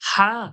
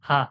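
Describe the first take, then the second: First: The h is harsh and throaty. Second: The h is light and plain. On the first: The speaker calls it wrong. "আরবির বড় হায়ের মতো কি আর আমরা বলি?" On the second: The speaker calls it right. "Simple বলি হা।"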